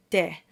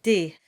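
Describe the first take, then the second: First: De with a clear rounded e; formal de. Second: De said casually, the everyday way. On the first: Teacher shows the formal French pronunciation. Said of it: "In formal French, it's definitely". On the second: Teacher shows the casual spoken pronunciation. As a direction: say de like in regular speech. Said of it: "Most people, including myself, will often say". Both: Shown as a demonstration.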